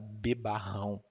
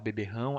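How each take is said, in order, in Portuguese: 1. A segunda sílaba tem a vogal 'a'. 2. A segunda sílaba tem a vogal 'e'. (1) "lá no Ceará a gente fala" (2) "em vez de falar beberrão"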